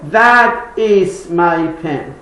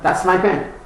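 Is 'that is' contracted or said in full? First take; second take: full; contracted. First: That and is are said as two words. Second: That is is shortened to one syllable. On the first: The speaker calls it wrong. "Or you could say" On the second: The speaker calls it right. "you make it short"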